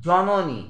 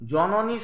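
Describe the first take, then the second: First: Said in the usual way. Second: জ-ন-নী in three separate beats; syllable by syllable. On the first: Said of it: "শব্দটি উচ্চারণ করতে গেলে". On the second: Shown as a demonstration. Teacher showing students three syllables, জ-ন-নী split into beats. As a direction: say জ-ন-নী with a gap after each syllable. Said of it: "উচ্চারণ করতে গেলে আমাদের হবে".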